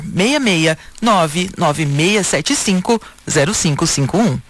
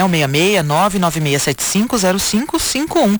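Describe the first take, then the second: First: The number is read very slowly. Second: The number is read at normal speed.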